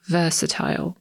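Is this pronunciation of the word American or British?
British. It is said with a British pronunciation. "Brytyjczyk powie raczej versatile"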